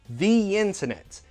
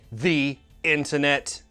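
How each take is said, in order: First: A y sound links the two words smoothly. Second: The two words are not linked by a y sound. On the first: The speaker calls it right. "In the middle, we put a y sound" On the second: The speaker calls it wrong. "that sounds weird"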